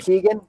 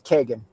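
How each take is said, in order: First: The first vowel is a long 'ee' sound. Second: The first vowel is a short 'e' sound. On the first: This is how most people say the name. The speaker calls it wrong. "most people pronounce the name Keegan" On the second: This is the traditional Irish way to say the name. The speaker calls it right. "the traditional Irish pronunciation of the name is Kegan"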